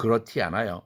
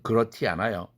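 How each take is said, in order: First: It is said North Korean style with a 't' sound. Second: It is said North Korean style with a 't' sound.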